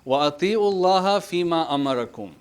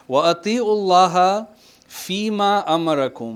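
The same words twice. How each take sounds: First: Very quick chanted recitation, فِي مَا said as two words; Quran recitation. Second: Quick, raised chanted recitation of the verse; Quran recitation. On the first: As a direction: rattle off the verse in a chant. Re-quotes verse after explaining. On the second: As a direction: recite it briskly like tajweed. Quotes verse while teaching. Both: Acted.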